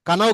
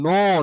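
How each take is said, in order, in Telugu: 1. ఈ పదం పలికే k శబ్దంతో మొదలవుతుంది. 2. ఈ పదం నేరుగా n శబ్దంతో మొదలవుతుంది. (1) "కనవ్ కాదు అది" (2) "ఇక్కడ కే సైలెంట్"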